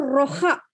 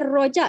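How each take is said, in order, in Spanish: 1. La j es un sonido 'h' gutural y áspero. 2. La j es un sonido 'dj' sonoro. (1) "no roja, ... no como en español" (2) "se pronuncia roja, ... porque J en malayo se pronuncia como en inglés"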